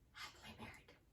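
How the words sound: It is said in a soft, deflated voice.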